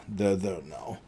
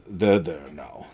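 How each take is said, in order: First: Much softer, almost breathed; calm them down with a hush; hushed, soothing repeat of They're there now. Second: Said in the usual way. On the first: Acted. Strahd soothing, repeated softly.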